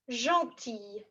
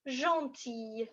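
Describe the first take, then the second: No difference in how they are said.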